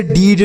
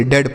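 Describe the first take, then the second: First: डीड with a long ee vowel; wrong reading DEED. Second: डेड with an e vowel, not ee; correct reading DED. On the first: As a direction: say डीड with a drawn ee, as spelt. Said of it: "इसे डीड नहीं पढ़ेंगे". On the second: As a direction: say डेड to rhyme with bed. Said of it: "डेड पढ़ेंगे". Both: Shown as a demonstration.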